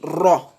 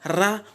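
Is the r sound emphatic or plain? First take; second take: emphatic; plain. First: The r is heavy with a darker, rounded vowel. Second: The r is light with an open a vowel. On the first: The speaker calls it right. "on dit ro" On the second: The speaker calls it wrong. "Au lieu de dire ra"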